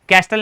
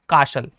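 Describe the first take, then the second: First: The t in castle is clearly pronounced. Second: The t in castle is silent. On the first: The speaker calls it wrong. "नहीं पढ़ेंगे" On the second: The speaker calls it right. "टी आपका silent हो जाएगा"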